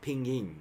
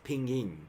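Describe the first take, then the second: First: It is said with English-style intonation. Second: It is said with English-style intonation.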